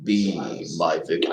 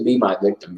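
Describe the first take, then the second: First: Low, rumbling "Be my victim" in a menacing bass; Candyman impression. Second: Candyman impression. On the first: Fan tries the villain's line while watching. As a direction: drop deep and draw it out like the hook-handed killer. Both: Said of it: "I can't do the "be my victim" very good".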